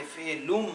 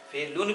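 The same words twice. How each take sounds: First: FELUM con la m finale a labbra chiuse. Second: फेलुन with a clear n ending; finale in n. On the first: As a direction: say फेलुम closing on an m. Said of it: "आप भी पढ़ेंगे". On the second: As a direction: end फेलुन on n, not m. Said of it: "भी पढ़ सकता हूँ मैं". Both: Shown as a demonstration.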